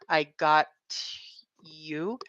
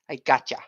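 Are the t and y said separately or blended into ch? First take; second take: separately; blended. First: The t and y are said separately. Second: The t and y blend into ch. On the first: "word that ends with T and the next word has a vowel sound, y" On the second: "we usually make it a, a C H sound"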